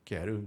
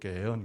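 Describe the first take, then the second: First: The r sound is clearly pronounced. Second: The r sound is dropped. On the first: The speaker calls it wrong. "이 발음은 촌스러운 발음이고" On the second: The speaker calls it right. "게은 그렇게 발음하는데"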